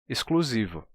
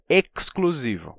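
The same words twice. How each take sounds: First: The x is said as an s sound. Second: The x is said as a ks sound. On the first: The speaker calls it right. "Esse X ele vai ser simplificado a um simples S" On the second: The speaker calls it wrong. "Não pode ser exclusivo"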